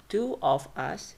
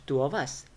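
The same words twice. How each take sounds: First: Two of us word by word, full o in of; full vowels. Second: Two of us run together as two-uv-us; weakened with schwa. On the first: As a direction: keep of separate and unreduced in two of us. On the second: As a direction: reduce of to schwa and link it to us. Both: Shown as a demonstration. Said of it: "By using schwa sounds".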